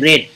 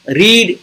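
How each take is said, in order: First: The vowel is short, like in 'red'. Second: The vowel is long, like in 'reed'. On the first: It is the past tense form. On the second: It is the present tense form.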